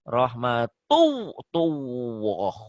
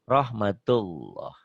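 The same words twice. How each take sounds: First: A full, clear w sound is pronounced. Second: Only a faint hint of w is heard. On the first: The speaker calls it wrong. "bukan W di sini" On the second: The speaker calls it right. "Seakan-akan ada W-nya"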